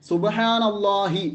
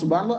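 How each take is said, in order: First: The phrase ends with a clear final 'hi'. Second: The phrase ends on 'la' without 'hi'. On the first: The speaker calls it right. "ഹി തന്നെ പറഞ്ഞോ" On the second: The speaker calls it wrong. "അങ്ങനെ ആക്കിയാൽ എന്താവില്ല"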